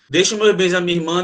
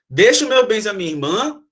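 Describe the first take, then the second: First: It is read flat, without question intonation. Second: It is said as a question, rising.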